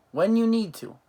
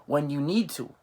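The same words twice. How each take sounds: First: "When you need to" thrown out much higher and louder; a raised-voice example of "When you need to"; emphatic repeat. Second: Said in the usual way. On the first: Shown as a demonstration. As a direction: punch out "When you need to" high and loud as a warning.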